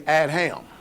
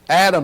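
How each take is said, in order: First: It is said with an h after the d. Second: It is said with no h after the d.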